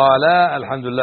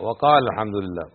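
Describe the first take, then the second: First: The vowel before al-hamdu is held long. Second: The vowel before al-hamdu is cut short. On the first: The speaker calls it wrong. "ما تقول" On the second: The speaker calls it right. "ألف هذه تحذف تكتب ولا تلفظ"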